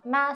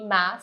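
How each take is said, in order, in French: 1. Il est prononcé sur un ton haut et plat. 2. Il est prononcé sur un ton descendant-montant. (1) "quand tu dis ma, c'est maman" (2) "ma, c'est cheval"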